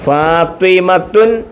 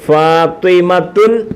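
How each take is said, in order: The two takes are said the same way.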